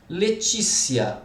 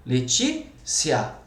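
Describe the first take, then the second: First: Said in the usual way. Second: "Letícia" with a pause after stressed TÍ; split into syllables. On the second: Shown as a demonstration. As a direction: break "Letícia" into Le-tí, then cia. ("Letícia" separada depois do TÍ) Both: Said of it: "deveria ter acento".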